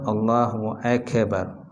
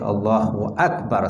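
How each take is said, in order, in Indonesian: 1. Akbar diucapkan dengan bunyi tambahan. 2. Akbar diucapkan dengan polos tanpa bunyi tambahan. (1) "Jangan sebut Allahu Akbar" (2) "Dia mesti Allahu Akbar saja"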